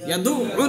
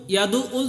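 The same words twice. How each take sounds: First: ইয়াদু উল with the আইন pressed and said twice; doubled ain. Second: ইয়াদু উল with the আইন said only once; single ain in ইয়াদু উল, no doubling; wrong reading. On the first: Teacher showing the student the correct doubled ain. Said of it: "আইনটা দুইবার উচ্চারণ করতে হবে". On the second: Teacher showing the student the wrong way to read it. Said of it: "ইয়াদু উল যদি বলেন". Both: Shown as a demonstration.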